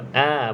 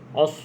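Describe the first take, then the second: First: The vowel is open, with the mouth wide. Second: The vowel is rounded, with the lips pushed out. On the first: The speaker calls it right. "a kena buka mulut tu" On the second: The speaker calls it wrong. "os tu dah muncung"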